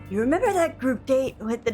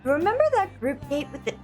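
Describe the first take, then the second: First: It is said in a put-on deep voice. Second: It is said in the speaker's normal voice.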